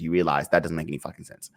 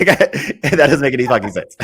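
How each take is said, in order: First: Said in the usual way. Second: Laughing repeat. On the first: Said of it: "plain first take". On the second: Real, not acted.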